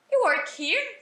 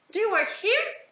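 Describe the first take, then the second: First: "You work here" pitched high, rising on "here"; informal question intonation. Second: "Do you work here" high, rising on "here"; full question with auxiliary. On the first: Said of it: "colocam a entonação de uma pergunta". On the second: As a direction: ask "Do you work here" with a clear "Do" first. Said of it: "o correto mesmo é você colocar um auxiliar". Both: Shown as a demonstration.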